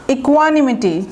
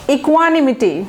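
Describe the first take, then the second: No difference in how they are said.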